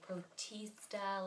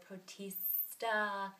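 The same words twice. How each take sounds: First: It is said in a dainty, refined voice. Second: It is said through clenched teeth. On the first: "like I'm drinking tea" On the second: "with your teeth"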